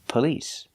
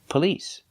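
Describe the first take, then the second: First: The stress is on the second syllable. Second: The stress is on the second syllable.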